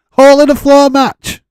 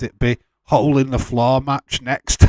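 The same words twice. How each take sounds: First: Shouts it high through a laugh; cracking up at his own joke. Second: Said in the usual way. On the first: Real, not acted. To the chat, laughing and shouting the name.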